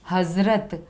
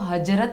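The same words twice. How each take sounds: First: The middle consonant is a z sound. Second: The middle consonant is a j sound. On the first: The speaker calls it right. "क्या बोलेंगे, ज।" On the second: The speaker calls it wrong. "इसको हजरत नहीं बोलते हैं"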